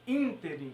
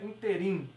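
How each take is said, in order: First: The stress is on the first syllable. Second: The stress is on a later syllable. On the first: The speaker calls it right. "é ínterim. A sílaba tônica é essa daqui" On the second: The speaker calls it wrong. "e não é interim"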